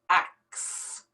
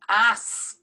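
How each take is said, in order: First: The word ends with a k then s sound. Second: The word ends with an s then k sound. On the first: The speaker calls it wrong. "switch around these two letters, the K and the S" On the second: The speaker calls it right. "we're going to pronounce it the right way"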